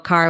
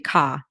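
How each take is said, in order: First: The word is said with its r sound. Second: The word is said without its r sound.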